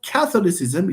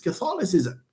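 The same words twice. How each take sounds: First: The stress is on the first syllable. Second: The stress is on a later syllable. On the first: The speaker calls it wrong. "it's not Catholicism" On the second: The speaker calls it right. "it's Catholicism"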